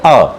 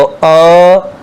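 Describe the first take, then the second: First: अ said short and crisp, one quick beat; brief short अ as in a Sanskrit drill; short vowel. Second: अ held three times as long, drawn out; extended pluta अ, sustained; prolonged vowel. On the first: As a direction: clip अ off quickly like a single short count. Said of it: "जैसे हम बोलते हैं अ". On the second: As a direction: stretch अ out for a triple count. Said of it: "प्लुत बोलना हो तीन गुना समय में". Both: Shown as a demonstration.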